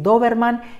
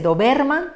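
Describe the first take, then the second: First: The stress is on the first syllable. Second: The stress is on the second syllable. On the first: The speaker calls it right. "queremos decir Doberman y por tanto colocamos una tilde en la O" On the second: The speaker calls it wrong. "su corazón en la penúltima sílaba que es ver"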